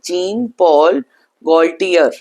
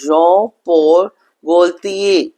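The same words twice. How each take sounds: First: The name is sounded out as English spelling. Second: The name is said with French sounds. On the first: The speaker calls it wrong. "if I'm reading by the spelling, it says" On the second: The speaker calls it right. "but the pronunciation is"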